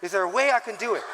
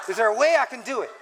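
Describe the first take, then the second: First: Fast, laughing self-question. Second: Emphatic. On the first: Pastor laughing about looking humble to elders. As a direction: chuckle at the struggle. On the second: Pastor repeating the question with more force. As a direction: push the question home. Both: Retold or imitated. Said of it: "look more humble".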